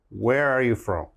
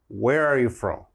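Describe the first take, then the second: The two takes are said the same way.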